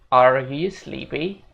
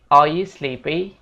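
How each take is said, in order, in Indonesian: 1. R di 'are' diucapkan dengan kuat. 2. R di 'are' dihilangkan. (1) "di American English mereka bakal bilang" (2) "Kalau di British English mereka bakal bilang"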